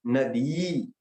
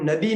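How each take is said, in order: First: नदी with the last ई drawn out; long final vowel. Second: नदी with the last ई cut short; short final vowel. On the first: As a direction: hold the end of नदी for two beats. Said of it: "दी दीर्घ कहते हैं उसमें". (नदी की आख़िरी ई लंबी खींचकर) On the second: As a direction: say नदी ending on a one-beat i. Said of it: "जैसे हम नदी नहीं कहते". (नदी की आख़िरी ई छोटी) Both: Shown as a demonstration.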